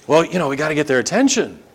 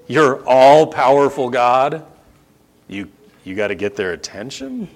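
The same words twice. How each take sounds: First: Rattled off as an offhand explanation; quick casual excuse. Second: Slow incredulous repeat. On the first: Idol worshipper explaining to the preacher, quick and casual. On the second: Preacher questioning the all-powerful God excuse, slow and incredulous. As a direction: repeat it back haltingly, in disbelief. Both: Acted. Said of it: "say that again slowly".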